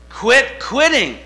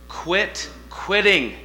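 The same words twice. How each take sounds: First: "Quit quitting" shouted high and slow; "Quit quitting" belted out high, loud and slow; preached shout. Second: Slow, deliberate quit quitting; "Quit quitting" said slowly, weighing each word; firm advice. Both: Shown as a demonstration. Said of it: "I'm gonna change your life right now".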